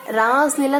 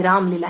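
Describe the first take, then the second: First: रास लीला said raised and a bit louder, as the mistaken version; the wrong name. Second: राम Leela said lower and matter-of-fact, with a clear M in राम; the correct name. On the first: Teacher voicing the mnemonic's misheard word, रास लीला, a bit raised. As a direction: say रास लीला with an R-A-S ending, marked as not quite right. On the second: Teacher correcting the class to the real name, राम Leela, calmly. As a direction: settle it: राम Leela, ending the first word on M. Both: Shown as a demonstration. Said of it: "राम लीला है actually में".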